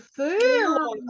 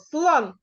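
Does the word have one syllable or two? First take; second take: two; one. First: An extra vowel splits the word into two syllables. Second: The word is said as one syllable. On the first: The speaker calls it wrong. "не силон" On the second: The speaker calls it right. "а одразу просто слон"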